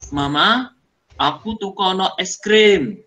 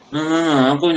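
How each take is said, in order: First: It is spoken clearly and distinctly. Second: It is mumbled and hard to hear.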